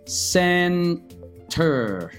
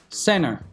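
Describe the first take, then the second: First: The T sound is pronounced in the word. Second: The T sound is dropped from the word.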